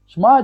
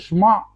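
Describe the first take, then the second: First: The word ends in a plain open vowel. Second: The word ends with a throaty guttural sound. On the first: The final letter could be taken for an alef or he. The speaker calls it wrong. "не айн, не выделил" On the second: The final letter is clearly heard as an ayin. The speaker calls it right. "чтобы это звучало как айн"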